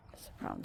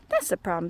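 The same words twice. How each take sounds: First: Unvoiced whispered aside. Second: Said in the usual way. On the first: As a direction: breathe "That's the problem" in a whisper. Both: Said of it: "said the moo".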